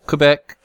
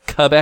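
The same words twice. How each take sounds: First: Said in the usual way. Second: "Quebec" with the w dropped, as kuh-BEK; Canadian pronunciation. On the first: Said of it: "don't Canadians pronounce Quebec". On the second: Shown as a demonstration. Asking co-host how Canadians say it, "Quebec" as kuh-BEK. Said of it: "don't Canadians pronounce".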